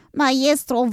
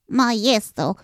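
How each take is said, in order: First: Maestro called again higher and more urgent; rising desperate call. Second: Small creature calling out for its master; urgent first cry of Maestro; desperate call. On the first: Helper calls the master again, higher and pleading. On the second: Little helper calls the sleeping master, desperate. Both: Acted. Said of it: "und rief verzweifelt".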